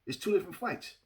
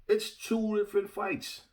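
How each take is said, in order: First: Said in the usual way. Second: "It's two different fights" higher and drawn out; emphatic repeat. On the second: Real, not acted. Boxing commentator repeating his point to viewers, slow emphatic insistence. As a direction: stretch out "two different fights" to drive it home.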